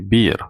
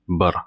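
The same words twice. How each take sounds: First: The vowel is held long. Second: The vowel is kept short. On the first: The speaker calls it wrong. "we don't say bir" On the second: The speaker calls it right. "Bir is a short e, ... we say bir"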